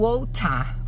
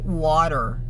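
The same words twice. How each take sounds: First: The t is pronounced clearly and crisply. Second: The t is softened into a quick flap. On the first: "no inglês britânico a gente vai falar o water, pronunciando bem o T" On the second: "No inglês americano, as pessoas falam water"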